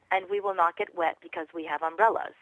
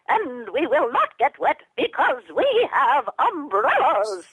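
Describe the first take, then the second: First: Said in the usual way. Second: High, slow squeaky puppet voice; tiny high-pitched puppet mom, slow; Twiddlebug mom. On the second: Shown as a demonstration. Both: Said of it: "what if she says".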